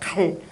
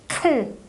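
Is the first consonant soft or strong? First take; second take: soft; strong. First: The first consonant is soft and unaspirated. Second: The first consonant is strong and aspirated. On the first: This is the old form of the word. "옛날엔 갈" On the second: This is the modern form of the word. "요즘 말은 굉장히 세졌죠"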